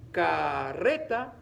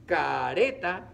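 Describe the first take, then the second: First: Slow "Carreta" with a strongly trilled rr; R fuerte. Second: Slow, loud "Careta" with a single tapped r; R suave. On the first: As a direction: stretch "Carreta" and roll the rr hard. ("Carreta" despacio, con erre fuerte y vibrada) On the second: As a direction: stretch "Careta", just flick the r, no trill. ("Careta" despacio, con erre suave de un solo toque) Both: Shown as a demonstration.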